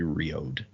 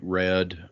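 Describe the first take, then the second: First: The name begins with a 'ree' sound. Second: The name begins with a 'ray' sound. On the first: This is the proper pronunciation. The speaker calls it right. "the correct pronunciation would be Riode" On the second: This is how the group used to say it. The speaker calls it wrong. "I think we said Rayod or Ray, Rayod or something when we said it"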